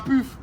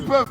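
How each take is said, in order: First: The vowel is a closed front 'u' sound. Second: The vowel is an open rounded 'eu' sound. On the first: The speaker calls it wrong. "pas puf" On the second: The speaker calls it right. "déjà on dit peuf"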